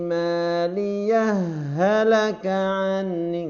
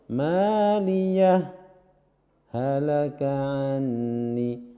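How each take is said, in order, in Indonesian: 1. Kata-katanya tersambung tanpa jeda. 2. Ada berhenti sebentar tanpa ambil napas setelah maliyah. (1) "diidghamkan, berarti nggak ada jeda langsung ... ngalir" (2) "boleh dibaca saktah. Tidak diidghamkan"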